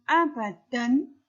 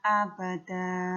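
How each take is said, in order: First: The word ends with an n sound. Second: The word ends with a long vowel. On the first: "Bagaimana bacaan abadan" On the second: "Ketika dia jatuh di akhir ayat, maka dia menjadi dibaca"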